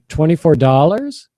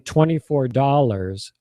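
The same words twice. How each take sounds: First: The pitch rises at the end. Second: The pitch falls at the end. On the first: The price is being questioned. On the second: The price is simply stated.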